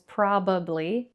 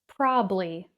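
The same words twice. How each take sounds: First: The word is said with three syllables. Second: The word is said with two syllables. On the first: "It looks like it has three syllables" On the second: "many native speakers pronounce this word with two syllables"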